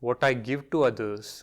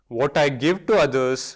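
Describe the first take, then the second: First: It is said at medium volume. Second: It is said loudly. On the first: "Now in medium voice" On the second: "affirm first loudly"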